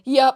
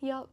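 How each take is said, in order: First: It is said in an aggressive way. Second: It is said in a gentle way.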